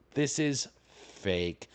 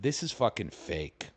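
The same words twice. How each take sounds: First: "This is fake" drawn out very slowly; slow, separated words, landing on "fake"; emphatic verdict. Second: Said in the usual way. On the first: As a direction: stretch out "This is fake", word by word.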